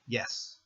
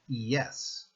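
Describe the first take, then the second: First: The word is said quickly, vowels run together. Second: The word is said slowly, drawing out each vowel. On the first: "you can speed it up a little" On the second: "pronounce it as if it were spelled I E S"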